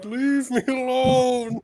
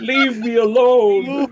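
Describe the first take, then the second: First: High, loud, drawn-out character scream; mock screaming. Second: High, drawn-out mock scream. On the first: Lonka screams at the psychic voice, hammed-up scream. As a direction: scream it slowly, stretching every word in play. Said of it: "Lonka starts screaming". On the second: Player voices Lonka after psychic scream, mock screaming. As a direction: wail it long and loud, hammed-up. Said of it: "I start screaming".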